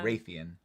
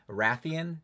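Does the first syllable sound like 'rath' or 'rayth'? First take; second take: rayth; rath. First: The first syllable rhymes with 'faith'. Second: The first syllable rhymes with 'bath'. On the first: "I say Raytheon. ... I know that it's wrong" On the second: "when people say Rathian, to me it sounds weird"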